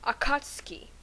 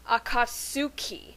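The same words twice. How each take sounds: First: The u after ts is silent. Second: The u after ts is clearly pronounced. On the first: The speaker calls it right. "the U is silent, so therefore it must be pronounced Akatsuki" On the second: The speaker calls it wrong. "at first I thought it was pronounced Akatsuki because of the U in it"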